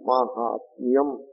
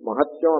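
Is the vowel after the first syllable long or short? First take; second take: long; short. First: The second syllable has a long vowel. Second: The second syllable has a short vowel. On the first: The speaker calls it right. "ఆ మాకి దీర్ఘం ఉంటుంది" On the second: The speaker calls it wrong. "మహత్యం అంటే తప్పు కదా అది. దాంట్లో మహత్యంలో మాకి దీర్ఘం పోయింది"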